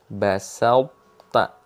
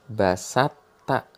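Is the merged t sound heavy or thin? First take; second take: heavy; thin. First: The merged t sound keeps a heavy quality. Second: The merged t sound is thin, without heaviness. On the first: The speaker calls it right. "masih ada tebalnya" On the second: The speaker calls it wrong. "yang salah itu seperti ini... Jadi toknya hilang karena dia langsung tipis"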